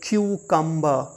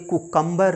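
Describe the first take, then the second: First: The word begins with a 'kyoo' sound. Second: The word begins with a plain 'koo' sound. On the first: The speaker calls it right. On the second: The speaker calls it wrong. "ये कुकम्बर नहीं है"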